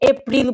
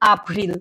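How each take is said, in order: First: The first vowel sounds like 'eh'. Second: The first vowel sounds like 'ah'. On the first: The speaker calls it wrong. "তাই আবার কেউ এটাকে এপ্রিল বইলেন না" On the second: The speaker calls it right. "এটা কি হবে? আপ্রিল"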